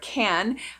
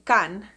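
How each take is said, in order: First: The vowel sounds like ordinary English. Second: The vowel sounds like the Spanish a. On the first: "the word can" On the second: "I would say can, because Mexicans, we pronounce the letter A as a"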